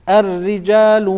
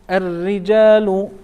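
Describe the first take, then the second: Both takes have the same delivery.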